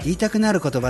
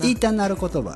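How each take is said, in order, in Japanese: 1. 関東のアクセントで、平板で気乗りしない感じで言われています。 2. 関西弁の、生き生きとした言い方で言われています。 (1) "関東方面の人が、まあ、言いたくなるよね。" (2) "言いたなるって関西の方やろ"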